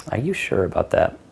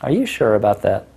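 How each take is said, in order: First: Mock disbelief. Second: Teasing disbelief; mock disbelief. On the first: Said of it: "So it's funny". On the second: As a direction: doubt her playfully. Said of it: "you're gonna go like". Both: Shown as a demonstration.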